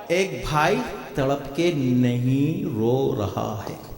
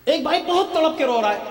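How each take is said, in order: First: Very slow, low, deliberate tone; low, measured, lingering delivery; low and drawn-out. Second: High, pressing preacher's tone; urgent high-pitched statement; heightened emphasis. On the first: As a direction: sink the voice and stretch each word. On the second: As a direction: lift the whole line high, stressing "بہت". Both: Real, not acted. Contrasts two brothers, weeping and not.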